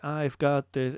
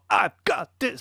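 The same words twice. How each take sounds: First: The phrase starts softly, without a hard attack. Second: The phrase starts with a hard, edgy attack. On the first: The speaker calls it wrong. "instead of like" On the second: The speaker calls it right. "It sounds more, ... a little bit more edgy"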